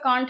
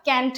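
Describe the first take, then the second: First: Can't in a British accent with a broad ah vowel; British can't, said kahnt. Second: Can't in an American accent with a flat a, like kant; American can't, flat front vowel. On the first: Teacher gives the British accent form of can't. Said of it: "British pronunciation". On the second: Teacher gives the American accent form of can't. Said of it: "American pronunciation". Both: Shown as a demonstration.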